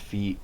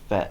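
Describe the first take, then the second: First: The vowel is a long 'ee' sound. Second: The vowel is a short French 'eh' sound. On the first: This follows English spelling rules. "it should be pronounced feet according to our rules" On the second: This is the original French pronunciation. "In French, it's pronounced fait"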